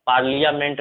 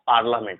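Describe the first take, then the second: First: पार्लियामेंट said with the i sounded, par-li-ya-ment; wrong pronunciation. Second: पार्लियामेंट said with a silent i, par-la-ment; correct pronunciation. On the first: Teacher showing students the wrong way, with the i sounded. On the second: Teacher giving students the right way, with a silent i. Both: Shown as a demonstration. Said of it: "पार्लियामेंट नहीं होता है".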